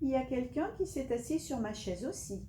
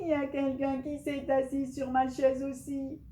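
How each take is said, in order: First: It is said in a soft, gentle voice. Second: It is said in a loud, shouting voice.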